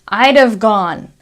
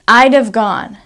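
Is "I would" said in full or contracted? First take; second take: contracted; contracted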